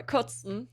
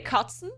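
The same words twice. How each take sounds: First: Kotzen with a rounded "o", said "kotsen"; second pronunciation. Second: Kotzen with an open "ah", said "kahtsen"; first pronunciation. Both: Shown as a demonstration. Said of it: "Actually, it means two things".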